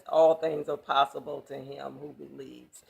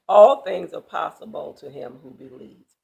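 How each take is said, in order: First: Said in the usual way. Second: Ringing declaration. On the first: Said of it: "He says". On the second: Acted. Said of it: "Jesus says".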